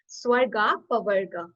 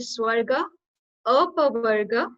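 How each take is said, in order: First: The two words run together without a break. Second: The two words are said separately with a break. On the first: "when we'll pronounce it" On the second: "when we'll split it"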